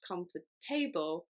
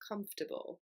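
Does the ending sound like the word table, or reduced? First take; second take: like table; reduced. First: The ending is said fully like the word table. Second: The ending is reduced, unlike the word table. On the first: The speaker calls it wrong. "That table is not the same as the word table" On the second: The speaker calls it right. "but it's comfortable"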